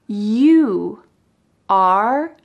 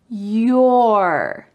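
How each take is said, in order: First: Two separate words are said, 'you are'. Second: One contracted syllable is said, 'you're'.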